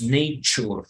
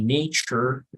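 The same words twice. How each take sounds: First: The R at the end is trilled. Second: The R at the end is not trilled. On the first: The speaker calls it wrong. "No decimos nature" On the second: The speaker calls it right. "you don't vibrate"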